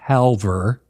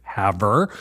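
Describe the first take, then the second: First: The word is said with an L sound. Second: The word is said without an L sound. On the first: The speaker calls it wrong. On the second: The speaker calls it right.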